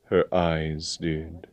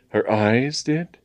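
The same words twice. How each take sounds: First: Hushed and drawn out, sorrowful; wistful statement. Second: "Her eyes did?" slow, higher, rising at the end; "did" lifted into a baffled question; puzzled echo question. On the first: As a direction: say it with quiet resignation. Colonel's sorrowful answer, then echoed. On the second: James echoes it as puzzled question. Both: A narrator's reading.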